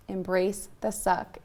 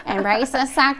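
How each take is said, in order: First: Said in the usual way. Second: Louder, higher mock husband voice; husband's voice. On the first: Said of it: "my husband tells me". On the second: Hearing husband's voice when wanting to crawl out, mock husband voice. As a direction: imitate a husband's blunt order, loudly. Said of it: "I hear his little freaking voice".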